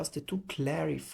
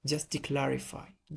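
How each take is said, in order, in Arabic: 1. كلمة 'to' تُنطق كاملة. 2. كلمة 'to' تُختصر إلى صوت t. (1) "ما بتقولش just to clarify" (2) "تقول تي تي"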